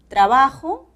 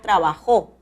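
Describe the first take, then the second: First: The stress is on the middle syllable. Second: The stress is on the last syllable.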